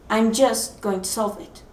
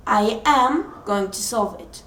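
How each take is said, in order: First: "just" stressed, the rest more matter-of-fact. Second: "am" stressed and held in "I am going to solve it". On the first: Student shrinking a big problem, stress on "just". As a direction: lean on "just" to make the task small. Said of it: "And then you say". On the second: Student affirming on waking up, stress on "am". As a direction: lean firmly on "am" as an affirmation. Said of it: "the most power affirmation from yourself". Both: Shown as a demonstration.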